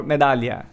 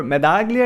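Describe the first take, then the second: First: "Medaglia" said the Italian way, silent g, "gl" as ly; Italian pronunciation. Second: "Medaglia" said as spelt in Spanish, with a sounded g; Spanish pronunciation. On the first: Host offering the guest another option, "Medaglia" in Italian pronunciation. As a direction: say "Medaglia" like an Italian, meh-DAH-lya. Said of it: "like in Italian". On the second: Host checking the guest's nickname, "Medaglia" in Spanish pronunciation. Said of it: "it sounds in Spanish". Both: Shown as a demonstration.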